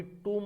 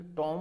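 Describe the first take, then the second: First: टूम said with long "oo", no b; correct pronunciation. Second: टॉम said with open "aw"; wrong pronunciation. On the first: Teacher reasoning out tomb for students, टूम as "toom". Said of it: "ये टूम है". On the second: Teacher trying the rejected form, टॉम as "tawm". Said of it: "but ये टॉम नहीं है". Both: Shown as a demonstration.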